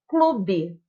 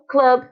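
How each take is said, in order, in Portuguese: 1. A palavra termina com um som de vogal acrescentado. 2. A palavra termina em consoante pura. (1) "virou o clube para nós" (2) "o club em inglês"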